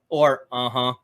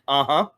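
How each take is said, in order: First: It sounds sarcastic and dismissive. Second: It sounds sincere and attentive. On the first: The listener is brushing off the point. "it might be a little bit more sarcastic" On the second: The listener is following and wants to hear more. "I'm I'm getting your point. Let me hear more"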